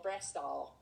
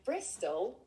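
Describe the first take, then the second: First: Bristol said with an extra L sound at the end; Bedminster-style Bristol; Bristol accent. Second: Said in the usual way. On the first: Shown as a demonstration. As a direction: say Bristol the local way, adding an L. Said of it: "put an L on the end of everything". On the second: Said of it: "as I would say it".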